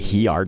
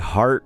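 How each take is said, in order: First: The word is split into two syllables. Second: The word is said as one syllable. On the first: The speaker calls it wrong. "but they say he art" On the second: The speaker calls it right. "supposed to say heart correctly"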